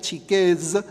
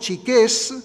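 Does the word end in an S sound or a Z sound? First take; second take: Z sound; S sound. First: The word ends with a voiced z sound. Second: The word ends with a voiceless s sound. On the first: "acabado en Z, que debería ser un sonido Z" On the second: "chiqués acabado en S"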